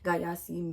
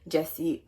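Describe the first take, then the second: First: The name is said with three syllables. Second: The name is said with two syllables. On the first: The speaker calls it wrong. "I've been saying Gayasi, making it more exotic than what it is" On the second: The speaker calls it right. "it's literally Jesse"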